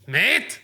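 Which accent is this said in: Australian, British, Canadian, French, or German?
German. It is said in a German accent.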